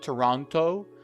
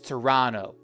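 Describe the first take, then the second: First: The second T is clearly pronounced. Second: The second T is dropped or barely heard. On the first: The speaker calls it wrong. "It's not Toronto" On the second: The speaker calls it right. "They don't really voice the T"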